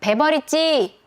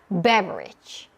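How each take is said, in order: First: All syllables get even, flat weight. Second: The first syllable is stressed, the rest reduced. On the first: The speaker calls it wrong. "그냥 하는 거" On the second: The speaker calls it right. "강세를 리듬을 타면서"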